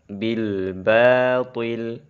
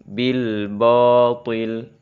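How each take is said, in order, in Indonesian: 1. Bunyi ba itu tipis. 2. Bunyi ba itu tebal. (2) "terbaca ba-nya tebal"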